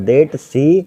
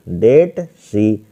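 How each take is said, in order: First: Said in the usual way. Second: "that सी" drawn out very slowly, word by word; slow dictation. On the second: Shown as a demonstration. Teacher dictating to students while writing, "that सी" slow and drawn out. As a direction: stretch each word of "that सी" as if students copy it down. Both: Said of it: "तो that सी हो जाएगा यहाँ पर".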